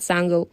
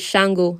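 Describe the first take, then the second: First: The name begins with a plain s sound. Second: The name begins with an sh sound. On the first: The speaker calls it wrong. "not Sango" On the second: The speaker calls it right. "the correct pronunciation for um this god"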